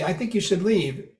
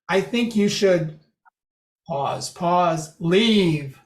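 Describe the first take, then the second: First: Said in the usual way. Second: Long pauses after should, then leave alone; dramatic pausing. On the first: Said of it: "if you don't have that pause". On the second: Shown as a demonstration. Lecturer showing effective pausing, suspense before leave. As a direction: hold back, then land leave by itself. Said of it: "Then there's pausing".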